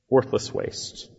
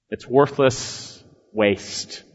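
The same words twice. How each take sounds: First: Whispered repeat, "worthless" falling; hushed echo. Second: Slow, heavy stress on worthless; slow emphatic. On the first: Preacher echoing himself to the congregation, whispered. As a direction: breathe the words "Worthless waste" as a whisper. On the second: Preacher to congregation, slow stress on "worthless". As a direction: lean hard and slowly on "worthless". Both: Real, not acted.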